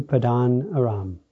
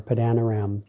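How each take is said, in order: First: "Padan Aram" with an ah in "Padan", pah-DAHN; alternative pronunciation. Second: "Padan Aram" with short a's, pa-DAN a-RAM; alternative pronunciation. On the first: Preacher reading a place name, "Padan" pronounced pah-DAHN. Depending on how you want to pronounce it. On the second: Preacher offering another pronunciation, "Padan Aram" as pa-DAN a-RAM. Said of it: "depending on how you want to pronounce it". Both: Shown as a demonstration.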